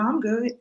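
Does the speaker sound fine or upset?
fine. The tone sounds relaxed and genuinely fine. The person really is okay. "No, I'm good"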